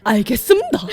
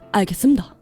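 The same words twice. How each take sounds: First: It is said in an exaggerated broadcast-style tone. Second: It is said in a toned-down, more natural tone. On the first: The speaker calls it wrong. "북한 뉴스 앵커 톤으로 처음에 연습을 하다가" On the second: The speaker calls it right. "점점 다듬어져서"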